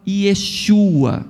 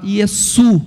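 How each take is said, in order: First: "Yeshua" with a sh sound and final a; Hebrew form, not Aramaic. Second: "Yesu" with a plain s, ye-SU; Aramaic pronunciation. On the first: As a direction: say "Yeshua" as ye-SHU-a, hushing the sh. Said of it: "no aramaico você não fala". (forma hebraica, "Yeshua" com som de xu) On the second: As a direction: end "Yesu" on a stressed SU, no sh. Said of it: "você fala Yesu". (pronúncia aramaica, "Yesu" com s, sem chiado) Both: Shown as a demonstration.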